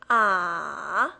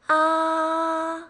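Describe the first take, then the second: First: The pitch dips down, then rises. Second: The pitch stays high and level. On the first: "It goes down, then picks up" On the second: "same level, it's a little high pitched"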